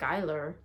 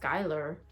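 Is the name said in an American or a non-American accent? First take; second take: American; American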